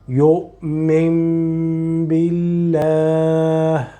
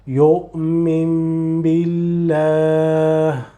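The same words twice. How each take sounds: Both takes have the same delivery.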